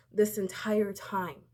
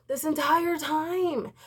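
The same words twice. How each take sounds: First: Said in the usual way. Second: This entire time stretched slow, higher and louder; emphatic repeat. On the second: Real, not acted. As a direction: lean hard on This entire time, slowly.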